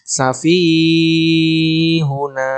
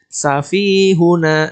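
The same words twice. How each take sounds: First: The long vowel is stretched far too long. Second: The long vowel is held for two beats. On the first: The speaker calls it wrong. "Tidak boleh safihuna. Nah, ini berlebihan, keliru" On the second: The speaker calls it right. "dua ketukan"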